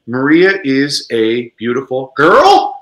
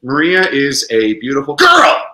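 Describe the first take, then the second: First: Put-on slow, level reading until "girl" leaps up; slow statement turning into a question on "girl"; question only at end. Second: Put-on statement exploding into an exclamation on "girl"; exclamation only at end. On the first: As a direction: hold the question back until a rising "girl". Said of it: "reading it as a question in English". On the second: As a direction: hold back, then burst out on "girl". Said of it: "Same thing with an exclamation". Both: Shown as a demonstration.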